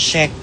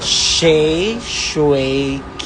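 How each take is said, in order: First: The middle syllable is dropped from the name. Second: All three syllables of the name are said. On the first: The speaker calls it wrong. "Inalis niya yung, ano, Shui. Diretso na siya sa Shay at saka sa K" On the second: The speaker calls it right. "Dapat Shay, Shui, K. Ganon"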